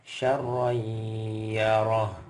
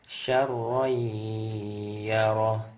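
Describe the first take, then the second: Both takes have the same delivery.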